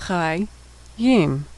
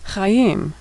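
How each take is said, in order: First: Syllable by syllable. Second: Said in the usual way. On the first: Shown as a demonstration. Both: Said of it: "final mem".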